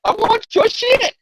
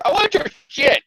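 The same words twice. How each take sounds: First: High, slow, mock villain voice; goblin demand. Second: High mock villain voice; goblin demand. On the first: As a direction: stretch it out like a cartoon goblin. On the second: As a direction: squeak it like a cartoon goblin. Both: Acting Hobgoblin demanding.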